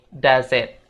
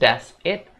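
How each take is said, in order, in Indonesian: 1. Kata-katanya disambung dengan lancar. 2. Kata-katanya diucapkan terpisah dengan jeda. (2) "nggak dipisah ya guys, tapi disambung. Bukan"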